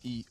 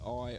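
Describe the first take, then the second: First: It is said as the Māori vowel sound. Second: It is said as the English letter name. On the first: The speaker calls it right. "the pronunciation used is A, E, I" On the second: The speaker calls it wrong. "rather than A, E, I"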